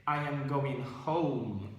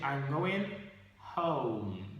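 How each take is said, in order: First: 'I am' is said as two full words. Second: 'I am' is contracted to one syllable. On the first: The speaker calls it wrong. "you should not say" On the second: The speaker calls it right. "You say"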